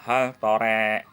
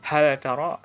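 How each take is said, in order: First: The l is merged into the following t. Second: The l is pronounced separately before the t.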